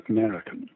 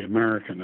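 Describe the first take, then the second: First: American-sounding "American", as said in the States; American pronunciation. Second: British-sounding "American", as said in Britain; British pronunciation. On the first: Contrasting the two accents, "American" pronounced the American way. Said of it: "presume I'm American because of my accent". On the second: Briton proving he isn't American, "American" pronounced the British way. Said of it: "even if I say American and not". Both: Shown as a demonstration.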